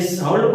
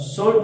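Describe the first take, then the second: First: साउंड said as "sauld", L sounded; L pronounced. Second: साउंड said as "sold", L sounded; L pronounced. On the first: Teacher guessing an old pronunciation, साउंड as "sauld" with L sounded. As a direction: say साउंड with an open "au" and an audible L, "sauld". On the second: Teacher offering another old pronunciation, साउंड as "sold" with L sounded. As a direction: say साउंड with a round "o" and an audible L, "sold". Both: Shown as a demonstration. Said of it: "एल का उच्चारण किया जाता था".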